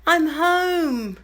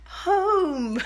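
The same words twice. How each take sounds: First: Croaky sing-song greeting; hoarse cry. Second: Higher croaky echo of the word; hoarse cry. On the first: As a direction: call it out with a lost voice. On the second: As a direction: sing it out hoarse. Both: Real, not acted. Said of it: "as you can hear, I've half lost my voice".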